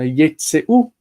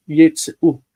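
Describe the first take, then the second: First: Yitzeu with a full "ay" middle vowel, stressed on tse; original unshifted accent. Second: Yitzeu with stress on the final u and a reduced middle vowel; accent shifted to shuruk. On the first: Teacher showing students the original form, yitzeu stressed on a full tse. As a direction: say yitzeu as yeet-SAY-oo. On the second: Teacher showing the shifted form, yitzeu stressed on final u. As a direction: say yitzeu as yeet-suh-OO. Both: Shown as a demonstration. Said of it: "when the accent shifted to the shuruk".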